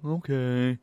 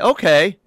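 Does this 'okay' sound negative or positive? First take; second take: negative; positive. First: It sounds downbeat, leaning negative. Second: It sounds mildly upbeat, leaning positive. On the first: Things are not going well. The speaker calls it wrong. "You went negative side of okay" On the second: Things are fine, if a little nervous. The speaker calls it right. "I'm leaning positive side of okay"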